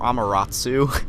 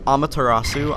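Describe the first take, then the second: First: Some syllables and vowels of the name are dropped. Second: Every syllable of the name is pronounced.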